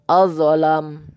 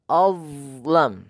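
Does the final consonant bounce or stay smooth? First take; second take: bounce; smooth. First: The consonant before the end bounces with an echo. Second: The consonant before the end flows without bouncing. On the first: The speaker calls it wrong. "memantulkannya saat sukun" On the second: The speaker calls it right. "Tidak perlu dipantulkan"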